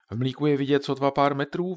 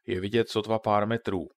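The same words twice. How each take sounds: First: Higher, louder echoed question rising on „metrů“; a child probing, "sotva pár metrů" lifted into a question; inquisitive question. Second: Said in the usual way. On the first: A narrator's reading. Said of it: "vyzvídal Ondra". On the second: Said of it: "rozčiloval se tatínek".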